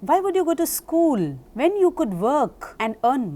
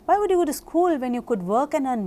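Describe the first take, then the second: First: The sentence is spoken slowly with pauses. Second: The sentence is spoken quickly without pauses. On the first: "Give the listener time to understand your words" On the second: "You could also say it with speed"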